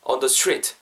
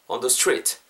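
No difference in how they are said.

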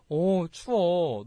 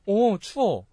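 First: Slow, drawn-out friendly shiver of words; considerate, lingering delivery; speaking nicely. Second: Abrupt complaint. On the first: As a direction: stretch it out kindly and sympathetically. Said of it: "되게 말을 이쁘게 잘하니까". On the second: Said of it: "있는데 갑자기". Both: Shown as a demonstration.

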